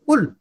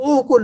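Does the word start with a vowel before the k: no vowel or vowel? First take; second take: no vowel; vowel. First: The word starts directly with the k. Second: A short vowel is said before the k. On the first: The speaker calls it right. "कुल। क्योंकि हमजा से शुरू हो रहा है" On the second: The speaker calls it wrong. "अब ओ कुल नहीं"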